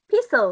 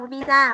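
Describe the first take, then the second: First: It is pronounced with an English accent. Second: It is pronounced with a Vietnamese accent. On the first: "còn tiếng Anh là gì?" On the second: "Tiếng Việt mới đọc pizza"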